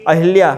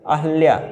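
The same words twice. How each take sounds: First: Said in the usual way. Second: अहल्या said with short a, no i: ə-hə-lya; अहल्या, short a after ह; corrected spelling. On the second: Shown as a demonstration. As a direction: say अहल्या as ə-hə-lya, not अहिल्या. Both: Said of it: "अहल्या होता है".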